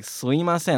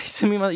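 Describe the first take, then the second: First: "sumimasen" squeezed to "suimasen", first m dropped; contracted form. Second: "sumimasen" with the first m clearly sounded; full form. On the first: Teacher copying co-host's everyday version, contracted. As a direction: glide from "su" straight into "i" in "sumimasen". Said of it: "You say, like". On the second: Teacher showing what people don't say, full pronunciation. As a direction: say "sumimasen" with all its syllables. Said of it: "You, you don't say". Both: Shown as a demonstration.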